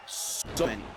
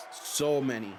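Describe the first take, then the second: No difference in how they are said.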